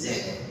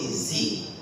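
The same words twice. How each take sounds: First: The letter is said as zed. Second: The letter is said as zee. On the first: This is the British way to say it. "But I speak British English, so it is Z" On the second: This is the American way to say it. "America came and said, no, it's Z"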